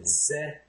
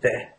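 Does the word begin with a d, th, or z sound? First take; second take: z; d. First: The word begins with a z sound. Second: The word begins with a d sound. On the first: This is a common foreign-speaker habit. The speaker calls it wrong. "But if you say ze" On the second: This is how people speak in Ireland. The speaker calls it right. "they say de"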